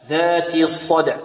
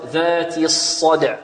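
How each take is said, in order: No difference in how they are said.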